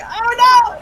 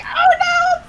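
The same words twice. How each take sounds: First: Higher, louder "Oh, no!" in mock alarm; startled cry of dismay at a crying boy. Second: Much higher "Oh, no!" in mock alarm; higher retelling of the startled cry. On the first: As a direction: yelp it like you just scared a kid. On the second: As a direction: squeak it out, horrified. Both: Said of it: "And I was like".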